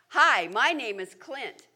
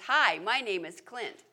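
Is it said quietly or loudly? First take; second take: loudly; quietly. First: It is said loudly and clearly, projected. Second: It is said at normal, quiet volume.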